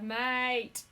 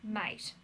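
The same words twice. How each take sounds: First: It is said in a warm, friendly way. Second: It is said in an annoyed, hostile way. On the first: The listener is a real friend. "which is your actual mate" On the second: The listener is unwelcome and should go away. "that means I hate you. Get out of me face"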